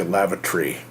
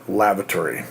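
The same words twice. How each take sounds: First: "lavatory" said as LAV-uh-tree, three syllables, with no "tor"; "lavatory" clipped to LAV-uh-tree, UK style; British lavatory. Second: Said in the usual way. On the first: Shown as a demonstration. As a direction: drop the middle vowel of "lavatory" the British way. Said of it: "in the United Kingdom they say". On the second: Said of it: "We had to say".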